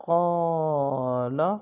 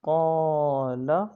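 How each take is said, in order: Both takes have the same delivery.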